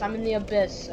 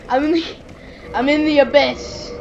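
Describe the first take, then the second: First: Said in the usual way. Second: Loud, raised-pitch mock drama; hammed-up announcement. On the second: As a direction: proclaim it with playful grandeur. Hammed-up repeat of being in abyss.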